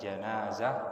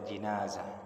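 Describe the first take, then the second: First: The first vowel is an open 'a' sound. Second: The first vowel is a close 'i' sound. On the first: "boleh dibaca janazah" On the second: "boleh dibaca jinazah; yang lebih fasih ... bil kasrah"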